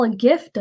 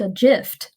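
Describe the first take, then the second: First: Said in the usual way. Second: Gift starting with a J sound; soft G. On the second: Shown as a demonstration. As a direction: say "gift" as JIFT. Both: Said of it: "you don't call a gift a gift".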